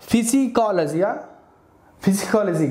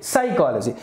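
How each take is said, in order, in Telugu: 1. ఈ పదం p ధ్వనితో మొదలవుతుంది. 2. ఈ పదం s ధ్వనితో మొదలవుతుంది. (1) "ఫిజికాలజీ కాదు" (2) "ఇక్కడ పి అనేది మనం పలకట్లేదు"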